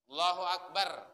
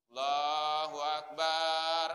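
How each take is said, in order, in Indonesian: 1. Vokal pada 'bar' dibaca pendek. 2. Vokal pada 'bar' dibaca panjang. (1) "Ba, tidak ada alif" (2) "Jangan dipanjang di sana, ... Salah itu. Bar itu yang salah"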